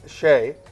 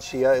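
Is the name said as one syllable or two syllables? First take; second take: one syllable; two syllables. First: The name has one syllable, rhyming with day. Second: The name has two syllables, like shee-ah. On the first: The speaker calls it right. "It's actually Shay" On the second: The speaker calls it wrong. "a lot of people say Todd Shia"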